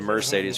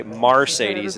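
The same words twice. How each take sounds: First: Said in the usual way. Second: "Marcedes" opening with MAR; childhood mispronunciation. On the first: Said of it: "instead of Mercedes". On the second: Shown as a demonstration. Recalling a childhood slip, "Marcedes" said with MAR. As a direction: say "Marcedes" with an ar in front. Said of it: "I did say Marcedes instead of Mercedes".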